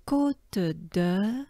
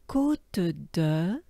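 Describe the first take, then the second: No difference in how they are said.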